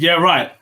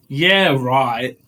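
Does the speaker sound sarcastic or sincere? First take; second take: sincere; sarcastic. First: It is said sincerely, in agreement. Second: It is said in a sarcastic, mocking tone. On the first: The speaker genuinely agrees. "Like I said, I said yeah, right" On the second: The speaker does not believe it. "if I was like being sarcastic, I'd be like yeah, right"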